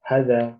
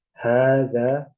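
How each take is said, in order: First: Hadza clipped short with no long a; wrong short hadza. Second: Hadza with the first a held long, haadza; long vowel hadza. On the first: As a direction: say hadza quickly with a short first vowel, as the wrong version. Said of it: "Tidak boleh dibaca". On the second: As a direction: draw out the a of hadza as the correct reading. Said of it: "Harus panjang". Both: Shown as a demonstration.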